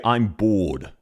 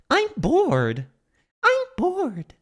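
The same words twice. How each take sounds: First: Australian accent. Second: Very high mimicry with North American "bored"; imitated North American accent. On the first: Shown as a demonstration. Streamer showing how Australians would say it, low Australian accent. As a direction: lower Australian "I'm bored". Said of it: "Australians would say". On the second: Streamer copying the character's voice line, high mock North American accent. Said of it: "there's a perfect example".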